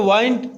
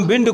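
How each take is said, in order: First: वाइंड with a long "eye" vowel, rhyming with find; poetic pronunciation. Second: Said in the usual way. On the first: Shown as a demonstration. Teacher telling students how to read it, वाइंड with an "eye" vowel. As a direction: read wind as वाइंड, like "wined". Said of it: "तो वाइंड ही कहकर पढ़ेंगे". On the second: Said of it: "ये जो विंड लिखा है".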